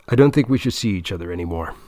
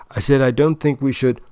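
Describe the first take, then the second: First: Blurted out fast in one breath; rushed blurt. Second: Firmer and louder, repeating it; insistent repeat. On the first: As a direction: get it out quickly, bracing. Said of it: "He takes a deep breath, closes his eyes, and dives in". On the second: Repeating himself to girlfriend. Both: Acted.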